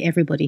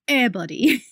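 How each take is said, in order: First: It is said in the speaker's plain accent. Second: It is said in an imitated African-American accent. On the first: "he didn't say everybody"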